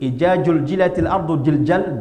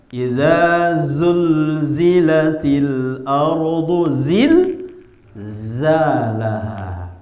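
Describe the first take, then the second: First: Every one of those letters is pronounced as j. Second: The letters are pronounced with distinct z sounds. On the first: The speaker calls it wrong. "jil semua, jim. Haram" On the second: The speaker calls it right. "Di situ bukan jim semua, ada zal, ada zai"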